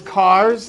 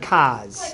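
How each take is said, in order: First: It is said in a standard American accent. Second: It is said in a New England accent. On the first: "no one drives" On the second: "they drive"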